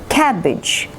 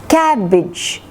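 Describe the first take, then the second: Both takes have the same delivery.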